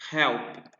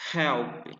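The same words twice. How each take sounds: The two takes are said the same way.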